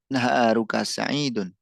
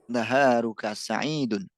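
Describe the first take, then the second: First: The last word ends with an audible -un. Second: The same.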